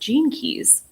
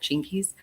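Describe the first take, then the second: First: It is said at normal pace as two words. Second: It is said fast, run together as one word.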